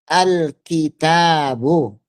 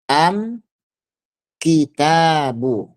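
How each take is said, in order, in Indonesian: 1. Artikel ini diucapkan dengan bunyi L. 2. Artikel ini diucapkan dengan bunyi M.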